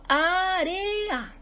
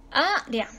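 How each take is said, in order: First: "área" stretched into three beats, á-re-a; teacher's drawn-out á-re-a for "área"; correctly divided. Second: "Área" cut in two, á-rea; "Área" with a long á, then a quick joined rea; wrongly divided. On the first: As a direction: sound out "área" high, with e and a held apart. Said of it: "Correctamente, por ejemplo". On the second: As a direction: say "Área" as two syllables, running e and a together. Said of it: "si estuviéramos dividiendo mal área". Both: Shown as a demonstration.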